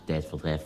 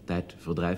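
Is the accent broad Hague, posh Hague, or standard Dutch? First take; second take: broad Hague; standard Dutch. First: It is said in a broad Hague accent. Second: It is said in a standard Dutch accent. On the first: "dus plathaars" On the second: "normale Nederlanders zeggen dan zeg maar tijdverdrijf met de I in de I"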